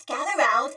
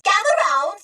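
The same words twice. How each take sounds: First: Said in the usual way. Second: Raised, higher call to gather listeners. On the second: Acted. Droid storyteller calling the crowd closer, excited. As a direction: beckon everyone over brightly.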